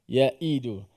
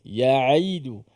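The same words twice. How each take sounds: First: The middle sound is a light glottal stop. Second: The middle sound is a throaty voiced ain. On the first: The speaker calls it wrong. "jangan kita baca asyaitanu yaidukumul yaidu, yaidu. Tak sampai dia punya ain" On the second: The speaker calls it right. "ain dia ada lagi sifat pertengahan tu suara kita"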